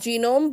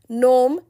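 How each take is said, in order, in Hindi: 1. शब्द 'G' ध्वनि से शुरू होता है। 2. शब्द 'G' ध्वनि के बिना शुरू होता है। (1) "not pronounced as genome" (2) "G remains silent"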